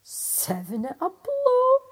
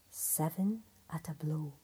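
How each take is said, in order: First: Much higher, louder, slow crow of victory; Seven at a blow, crowed high and loud; triumphant cry. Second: Lower, softer whispered reading; Seven at a blow, whispered low and soft; hushed reading. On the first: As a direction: shout it out in triumph. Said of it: "cried the tailor". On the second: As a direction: read the stitched words in a whisper. Words stitched on the belt. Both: Acted.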